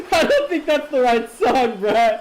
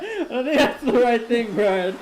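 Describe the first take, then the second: First: Slow words through real laughter; amused, still laughing. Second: Said in the usual way. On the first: Real, not acted. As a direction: giggle out the complaint at Brad. Laughing at wrong song.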